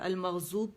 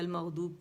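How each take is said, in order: First: The middle consonant is a z sound. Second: The middle consonant is a heavy d sound. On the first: The speaker calls it wrong. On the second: The speaker calls it right.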